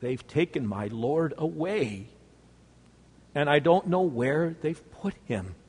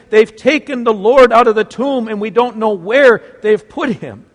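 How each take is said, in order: First: Softer, trembling with grief; barely holding back tears; quiet broken answer; quivering voice. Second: Louder, urgent and out of breath; frantic breathless cry; breathless exclaim. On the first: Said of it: "with a quivering voice". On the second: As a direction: blurt it out in a panic. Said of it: "she breathlessly exclaims". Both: Acted.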